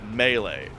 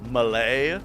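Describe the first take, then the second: First: The stress is on the first syllable. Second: The stress is on the second syllable. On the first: "most people say melee" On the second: "you emphasize the second syllable"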